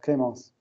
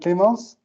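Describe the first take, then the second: First: The name is said with an English pronunciation. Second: The name is said with a French pronunciation. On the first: "you are from the U S" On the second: "you're from France. Okay, so I can say"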